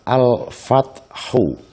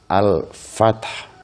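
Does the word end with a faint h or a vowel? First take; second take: vowel; faint h. First: The word ends with a short u vowel. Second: The word ends with a faint, barely audible h. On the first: This is the full form used when reading on. "Bacaan aslinya adalah al-fathu" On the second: This is the form used when stopping at the word. "karena berhenti maka menjadi al-fath. Haknya lirih"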